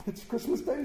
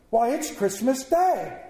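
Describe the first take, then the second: First: Soft, high murmur of delight; hushed, wondering self-talk; to himself. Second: Slow, raised-pitch exclamation; astonished boy calling back; boy's amazement. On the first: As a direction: marvel privately, half under your breath. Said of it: "Scrooge said to himself". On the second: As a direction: answer as if it were utterly obvious and wondrous. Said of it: "with all his might and wonder". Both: A narrator's reading.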